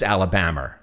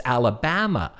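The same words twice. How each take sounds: First: Alabama said with an r ending, "Alabamer"; mimicked New York "Alabama", closing on an r; New York pronunciation. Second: Alabama ending in an open "-ma", no r; imitated correction, Alabama without the r sound; corrected pronunciation. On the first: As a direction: end Alabama on "-mer", New York style. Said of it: "with my New York accent". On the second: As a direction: correct it to "Alabama" with a clean final "ah". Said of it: "Where is Alabama? I've never heard of".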